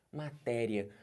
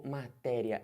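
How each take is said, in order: First: Said in the usual way. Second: "matéria" drawn out slowly as ma-té-ri-a, with "ri" and "a" apart; slow, separated syllables in "matéria". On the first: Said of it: "matéria é assim ou eu separo". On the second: Shown as a demonstration. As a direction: stretch every syllable of "matéria", splitting the final "i-a". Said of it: "ou eu separo matéria".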